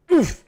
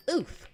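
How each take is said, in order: First: A loud, high, chirpy oof sound effect; happy oof. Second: Happy oof. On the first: Streamer doing the Roblox oof for chat, loud and high. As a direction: squeak the Roblox oof out cheerfully. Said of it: "the oof Roblox sound in a happy voice". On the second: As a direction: pitch the oof way up but keep it small. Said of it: "how do you do that in a happy voice". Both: Pretend.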